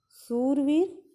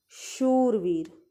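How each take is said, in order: First: शूरवीर said as surveer, with a plain s; शूरवीर read the wrong way with s not sh. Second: शूरवीर said slowly as shoorveer with a clear sh; शूरवीर drawn out with a proper sh sound; correct reading. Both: Shown as a demonstration. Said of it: "शुद्ध और शुद्ध बोलना".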